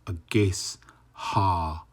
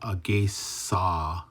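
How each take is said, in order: First: The S and H are said as separate sounds. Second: The S runs into the vowel without an H. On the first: The speaker calls it right. "then you can separate the H" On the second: The speaker calls it wrong. "it's not agesa"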